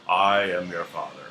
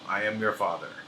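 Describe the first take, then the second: First: It is said in a Darth Vader voice. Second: It is said in his normal voice.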